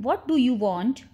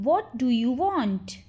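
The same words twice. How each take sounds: First: Said in the usual way. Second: Slowed-down question for learners; slow model repeat. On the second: Shown as a demonstration. Teacher repeats the question for learners, slowly. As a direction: space the words out slowly.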